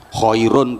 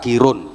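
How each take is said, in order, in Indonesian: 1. Diucapkan dengan bunyi Arab, seperti khairun. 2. Diucapkan dengan bunyi Jawa, seperti kirun.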